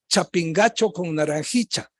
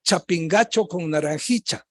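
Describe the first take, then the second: First: The ll sounds almost like a ch. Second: The same.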